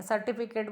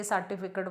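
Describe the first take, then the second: First: सर्टिफिकेट with a full "ke" in the last syllable; careful standard सर्टिफिकेट; correct सर्टिफिकेट. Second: सर्टिफिकेट with the last vowel reduced, "-kat"; lower, softer सर्टिफिकेट ending in "kat"; colloquial सर्टिफिकेट. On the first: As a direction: say सर्टिफिकेट as "sar-ti-fi-ket". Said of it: "बोलना चाहिए". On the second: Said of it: "बोल देते हैं". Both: Shown as a demonstration.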